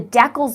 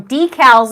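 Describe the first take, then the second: First: It is said the Canadian way. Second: It is said the American way.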